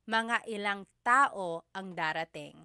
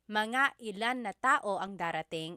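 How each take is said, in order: First: 'Ilan' ends in an 'ng' sound, no 'na'. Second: A separate 'na' is said after 'ilan'. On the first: "you can make a contraction again" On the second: "Instead of"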